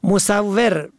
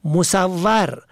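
First: مصور as "musawwer"; short "e" in the last syllable of مصور; kasra on third letter. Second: مصور as "musawwar"; fatha on third letter. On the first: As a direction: say مصور as mu-saw-WER. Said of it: "به کسر سوم". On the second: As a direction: open "a" in the last syllable of مصور. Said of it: "به فتح سوم". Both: Shown as a demonstration.

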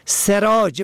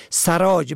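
First: سراج as "serāj"; short "e" after the s in سراج; kasra on first letter. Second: سراج as "sarāj"; fatha on first letter. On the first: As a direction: say سراج as se-rāj. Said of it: "به کسر اول". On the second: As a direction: open "a" after the s in سراج. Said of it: "به فتح اول". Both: Shown as a demonstration.

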